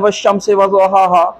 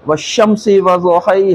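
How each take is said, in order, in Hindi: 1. आखिरी शब्द एक खुले 'a' स्वर पर खत्म होता है। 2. आखिरी शब्द 'ay' जैसे स्वर पर खत्म होता है। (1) "हम यहाँ पढ़ते हैं" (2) "मिस्र में चले जाइए ... तो कहेंगे"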